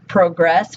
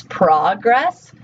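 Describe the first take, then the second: First: "progress" stressed on the second syllable, proGRESS; verb stress pattern. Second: "progress" stressed on the first syllable, PROgress with an open o; noun stress pattern. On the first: Teacher contrasting word stress for students, "progress" said proGRESS. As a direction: hit GRESS in "progress". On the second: Teacher contrasting word stress for students, "progress" said PROgress. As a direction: hit PRO in "progress", rhyming with prog. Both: Shown as a demonstration. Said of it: "they are stressed differently".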